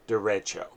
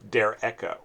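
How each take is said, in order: First: The word is said with a Spanish-style pronunciation. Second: The word is said with a German-style pronunciation. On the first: "If I saw that on the menu of a Mexican restaurant, I would pronounce it derecho" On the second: "a more Germanic pronunciation would be Der Echo"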